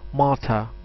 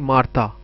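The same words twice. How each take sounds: First: It is said with a native English pronunciation. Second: It is said with a Hindi-speaker pronunciation. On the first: "a native English will say Martha" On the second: "We will say Martha"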